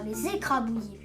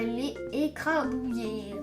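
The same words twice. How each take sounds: First: A z sound links les to the next word. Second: The s of les is not sounded. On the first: The speaker calls it right. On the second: The speaker calls it wrong.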